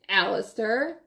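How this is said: It is said as a quiet warning.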